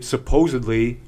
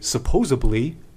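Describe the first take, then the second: First: It is said with a 'd' sound before '-ly'. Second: It is said with a 'b' sound before '-ly'.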